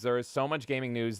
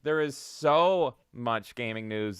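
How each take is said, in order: First: Said in the usual way. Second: Slow, with stress on so; stretched emphasis. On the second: Shown as a demonstration. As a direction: draw out the so. Repeats opening line more slowly.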